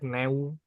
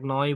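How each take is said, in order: First: The vowel sounds like 'eh-oo'. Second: The vowel sounds like 'oy'. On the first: The speaker calls it wrong. "bukan Neswerk neu" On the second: The speaker calls it right. "noi bukan"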